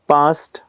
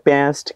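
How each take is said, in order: First: It is said in a British accent. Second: It is said in an American accent. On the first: "British English काय?" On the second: "American English म्हणजे काय?"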